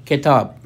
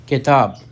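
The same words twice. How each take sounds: Both takes have the same delivery.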